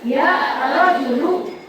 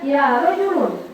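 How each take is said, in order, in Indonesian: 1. Kata terakhir diakhiri dengan vokal, tidak ada n. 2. Kata terakhir diakhiri dengan bunyi n. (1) "buang tanwinnya menjadi ya rajulu" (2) "nggak boleh kita baca ya rajulun"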